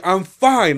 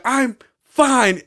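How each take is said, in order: First: Higher, louder retort; mock annoyed insistence; imitated getting mad. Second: Much higher, louder mock protest; exasperated, pitched way up; imitated angry insistence. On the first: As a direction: snap it like an irritated drunk. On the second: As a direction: imitate a drunk at peak irritation. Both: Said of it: "he's getting mad".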